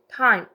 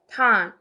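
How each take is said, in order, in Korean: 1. 모음이 한 음절 안에서 미끄러지듯 이어져요. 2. 모음이 한 음절 안에서 미끄러지듯 이어져요.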